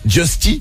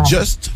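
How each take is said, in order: First: The name ends with an ee vowel. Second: The name ends on a plain t sound. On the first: "d'autres qui disent Justy" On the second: "Il y en a qui disent Just"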